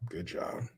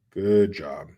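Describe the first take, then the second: First: Softer, muttered sarcastic "Good job"; sarcastic praise. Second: Flat, firmer sarcastic "Good job"; sarcastic praise. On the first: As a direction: say "Good job" under your breath, dripping sarcasm. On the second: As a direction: land "Good job" as a dry jab. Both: Real, not acted. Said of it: "Good job, Pennsylvania".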